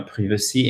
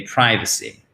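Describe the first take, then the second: First: "privacy" with a short i, as privv-uh-see; botched pronunciation. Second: "privacy" with the first vowel as eye; correct long I. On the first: Teacher showing what anglophones would find wrong, "privacy" as priv-uh-see. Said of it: "on se loupe complètement, on dit privacy". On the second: Teacher contrasting the correct word, "privacy" as pry-vuh-see. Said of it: "soit c'est bien prononcé". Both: Shown as a demonstration.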